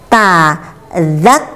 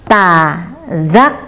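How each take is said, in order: The two takes are said the same way.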